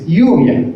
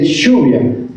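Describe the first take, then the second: First: The ll sounds like a y, Mexican style. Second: The ll sounds like sh, Argentinian style.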